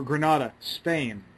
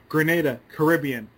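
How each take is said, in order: First: Granada said gruh-NAH-duh, Spanish city; pronounced Granada. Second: Grenada said gruh-NAY-duh, Caribbean island; pronounced Grenada. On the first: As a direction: Granada with an open AH sound. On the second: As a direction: Grenada with a long AY sound. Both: Shown as a demonstration. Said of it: "you know".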